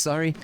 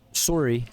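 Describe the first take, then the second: First: Said in the usual way. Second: "Sorry" said the Canadian way, as "SORE-ee"; Canadian "Sorry" with an "or" sound; Canadian pronunciation. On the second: Shown as a demonstration. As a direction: round the first vowel of "Sorry" like a Canadian. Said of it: "just how Canadians pronounce it".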